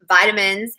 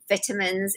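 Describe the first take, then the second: First: It is said in an American accent. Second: It is said in a South African accent. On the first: "instead of vitamins" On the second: "South Africans will say vitamins"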